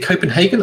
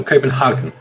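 First: "Copenhagen" with a long A, as in "hay-gen"; "Copenhagen" rhyming its third syllable with "say". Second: "Copenhagen" with an open "ah", as in "hah-gen"; "Copenhagen" with "spa" vowel in its third syllable. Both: Shown as a demonstration. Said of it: "is it Copenhagen or Copenhagen".

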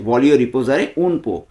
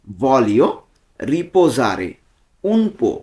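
First: Slow, each word spelled out for learners; slowly. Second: Said in the usual way. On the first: Shown as a demonstration. Teacher slowing down so viewers can repeat. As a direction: say voglio riposare un po' slowly and clearly, word by word. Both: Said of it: "আমি slowly বলছি".

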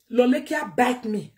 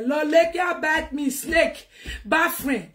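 First: Said in the usual way. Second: Raised, higher outburst; indignant shout. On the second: Real, not acted. Venting to viewers about a betraying friend, shouting.

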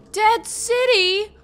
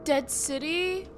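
First: High, loud, drawn-out question; alarmed disbelief. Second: Said in the usual way. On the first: Real, not acted. Gamer learning the city's name, alarmed disbelief. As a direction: repeat it slowly, louder, in disbelief.

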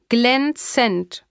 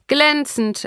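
First: „Glänzend“ drawn out in two separate syllables; „Glänzend“ slowly spelt out as a familiar refrain; stock answer parroted. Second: High-pitched, brisk declaration; lightly voiced mother on the phone; mother's stock answer. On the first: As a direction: stretch „Glänzend“ out, raised in pitch. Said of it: "Jolynn sprach das Wort lautlos mit". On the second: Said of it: "erklärte sie, das sagte sie immer". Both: A narrator's reading.

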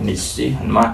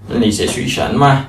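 First: Said in the usual way. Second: "Nǐ xue xí shen me?" repeated slowly and a bit louder; model repetition. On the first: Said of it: "Xue xí ta học từ đầu tiên rồi". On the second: Shown as a demonstration. Teacher repeats the Chinese question slowly for students. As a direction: echo the recorded question slowly and clearly.

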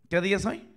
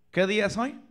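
The two takes are said the same way.

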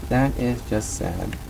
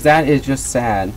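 First: Slow and much softer, almost under the breath; softer echo of the lament. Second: Said in the usual way. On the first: Acted. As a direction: drop the volume right down for the repeat. Repeats lament, second much softer.

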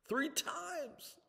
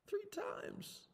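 First: High, ringing despair; high anguished cry. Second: High, breathless whisper; broken whisper. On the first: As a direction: cry out the count in pain. Peter counts his denials. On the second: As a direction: let it collapse into a whisper. Peter echoes his denials. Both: Acted.

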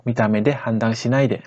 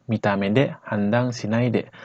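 First: Faster, natural-speed Japanese; sped up. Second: Slow. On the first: Teacher repeats the phrase at natural speed for learners. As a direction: run the phrase together quickly. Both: Shown as a demonstration. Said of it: "Jadi kalau kita percepat".

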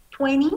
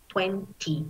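First: "Twenty" as tweni, the T dropped; American twenty. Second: "Twenty" with a clear T, twen-tee; British twenty. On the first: Teacher demonstrating American "Twenty" with no T. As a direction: say "Twenty" with a silent T. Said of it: "American English". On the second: Teacher demonstrating British "Twenty" with the T. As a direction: say "Twenty" pronouncing every T. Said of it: "British English". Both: Shown as a demonstration.

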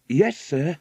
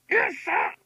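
First: Said in the usual way. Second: Very high macaw squawk; parrot voice. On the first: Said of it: "said Patsy". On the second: A narrator's reading. Macaw echoing the waitress through the window, squawking. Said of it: "said macaw through the open window".

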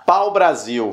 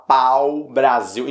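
First: Said in the usual way. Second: "pau Brasil" with a long, full "pau"; slow, low, savoured "pau Brasil"; mouth-filling pronunciation. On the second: Shown as a demonstration. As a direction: fill the mouth on "pau", then pause before "Brasil". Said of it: "encher a boca pra falar pau".

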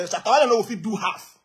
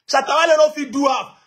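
First: Said in the usual way. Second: Louder repeat. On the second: Real, not acted.

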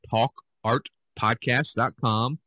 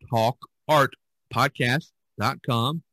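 Both takes have the same delivery.

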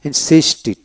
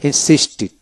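The two takes are said the same way.

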